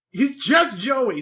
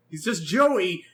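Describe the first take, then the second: First: "just" pushed louder and slow, drawn out; stress on just. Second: Said in the usual way. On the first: Shown as a demonstration. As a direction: lean hard on "just", slowly. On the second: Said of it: "Joey again".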